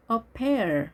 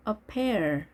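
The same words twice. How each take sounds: The two takes are said the same way.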